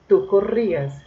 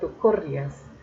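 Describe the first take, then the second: First: The i carries the stress as its own syllable. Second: The i is unstressed and glides into the a. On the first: The speaker calls it right. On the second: The speaker calls it wrong.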